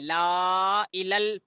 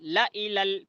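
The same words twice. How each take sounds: First: The vowel in la is drawn out long. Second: The vowel in la is kept short. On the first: The speaker calls it wrong. "पढ़े तो गलत" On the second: The speaker calls it right. "पढ़े तो सही"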